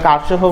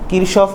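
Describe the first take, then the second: First: It sounds like Karshof, with an open first vowel. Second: It sounds like Kirshof, with an sh sound. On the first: Many people say it this way, without basis. The speaker calls it wrong. "কারশফও বলে অনেকে ... এটার ভিত্তি নেই" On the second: This is how the name is said in Bengali English. The speaker calls it right. "Bangla ইংলিশে হচ্ছে কিরশফ হয়"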